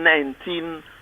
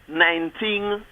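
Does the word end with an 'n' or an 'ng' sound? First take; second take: n; ng. First: The word ends with a plain 'n' sound. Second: The word ends with an 'ng' sound. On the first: The speaker calls it right. "instead of saying nineteen" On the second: The speaker calls it wrong. "pronounce your ins as ings"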